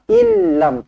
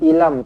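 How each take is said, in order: First: The l sound is held and doubled. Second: The l sound is short and single. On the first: The speaker calls it right. "tekankan betul-betul sabdu" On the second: The speaker calls it wrong. "Jangan ilam, ilam, tak nak"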